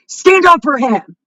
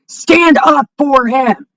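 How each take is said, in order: First: Said in the usual way. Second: Shouted, very slow, word by word. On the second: Real, not acted. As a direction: yell the demand slowly. Repeats the demand, second shouted.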